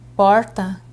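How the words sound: The R sounds like a countryside regional accent. This is the speaker's natural regional speech. "uma pessoa do interior falar porta"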